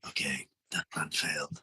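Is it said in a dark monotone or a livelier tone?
dark monotone. It is said in a dark, flat monotone.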